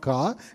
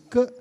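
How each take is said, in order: First: The vowel is drawn out long. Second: The vowel is cut short. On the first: The speaker calls it wrong. "it is not Ka" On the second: The speaker calls it right. "it is K"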